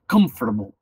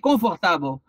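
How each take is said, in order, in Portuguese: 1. Só a primeira vogal é plena; as outras são reduzidas. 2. Toda vogal é pronunciada plenamente e com clareza. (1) "Só tem uma vogal aí, que é o O" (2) "quando o brasileiro vai aprender inglês, ele fala"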